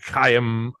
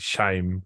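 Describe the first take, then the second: First: The name is not said like shame. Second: The name is said like the word shame. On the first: The speaker calls it right. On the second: The speaker calls it wrong.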